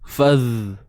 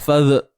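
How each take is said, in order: First: The dh sound flows on continuously without stopping. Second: The dh sound is held back and cut short. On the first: The speaker calls it right. "Biarkan suara kita tu mengalir" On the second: The speaker calls it wrong. "jadi kita tak mau bunyi fadh tu"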